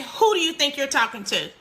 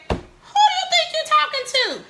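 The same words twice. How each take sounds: First: Said in the usual way. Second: High, sharp mother's rebuke; mock scolding mom. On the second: Mother mimicking a parent scolding a back-talking child. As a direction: play the outraged parent snapping at her teen.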